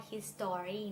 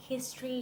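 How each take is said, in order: First: History drawn out as his-STO-ry; wrong full history. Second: History as HIS-tree, O dropped; two-syllable history. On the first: Teacher warns against it, history as three-syllable his-STO-ry. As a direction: say history with a clear, stressed O. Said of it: "ไม่ใช่ history นะ". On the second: Teacher contrasts it with his story, history as HIS-tree. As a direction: stress HIS and merge the rest of history. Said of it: "แต่มันก็ออกเสียงต่างจาก". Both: Shown as a demonstration.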